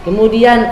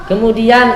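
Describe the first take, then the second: The two takes are said the same way.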